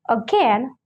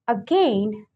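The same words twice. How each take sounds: First: The stressed vowel is a plain short e. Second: The stressed vowel glides as a diphthong. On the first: "So with the e sound" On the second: "or with a diphthong"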